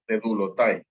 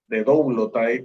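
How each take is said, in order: First: The o and u merge into one u sound. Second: The o and u are said as separate vowels. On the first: This is how the speaker learned to say it. "se pronuncia como una U" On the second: Some other people pronounce it this way. "pronuncian algunos otros"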